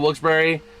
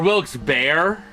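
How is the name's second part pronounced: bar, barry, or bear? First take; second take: barry; bear. First: The second part sounds like 'Barry', two syllables. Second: The second part sounds like 'bear', one syllable. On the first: This is how the name is actually said. "was pronounced Barry" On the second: The final E changes the vowel sound. "the E at the end usually makes the vowel say its name"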